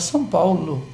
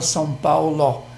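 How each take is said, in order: First: The final vowel is reduced to a 'u' sound. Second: The final vowel is a full 'o' sound. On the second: "Ninguém fala"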